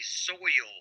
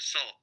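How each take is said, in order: First: It is drawn out, like the local Georgia accent. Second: It sounds like 'soul', the North Georgia way.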